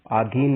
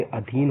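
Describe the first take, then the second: First: आधीन said with a long आ at the start; long aa in आधीन, the incorrect version; wrong form. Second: अधीन said with a short अ at the start; short a in अधीन, the correct version; correct form. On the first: Teacher reading out the wrong form आधीन, long first vowel. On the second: Teacher giving students the correct अधीन, short first vowel. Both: Shown as a demonstration. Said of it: "आधीन ना होके अधीन होगा".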